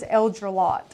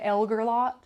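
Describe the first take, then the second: First: The middle of the name sounds like 'dre'. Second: The middle of the name sounds like 'ger'. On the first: The speaker calls it right. "this word is Eldrelot" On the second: The speaker calls it wrong. "no one could say it right. They would say Elgerlot"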